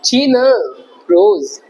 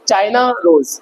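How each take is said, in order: First: The first vowel of China sounds like 'ee'. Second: The first vowel of China sounds like 'eye'. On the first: The speaker calls it wrong. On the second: The speaker calls it right.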